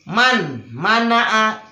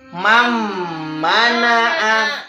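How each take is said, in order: First: The n sound is kept before the m. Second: The n sound merges into the m.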